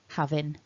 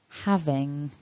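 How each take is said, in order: First: The word ends with an n sound. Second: The word ends with an ng sound. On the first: "with a n ending rather than the ng ending" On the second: "the way that you should try to pronounce them"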